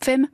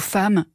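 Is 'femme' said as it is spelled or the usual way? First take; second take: as spelled; usual. First: It is pronounced as the letters suggest. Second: It has the usual everyday pronunciation. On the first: "ou bien se prononcer « femme »" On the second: "du mot « femme » qui devrait s'écrire « F-A-M-E"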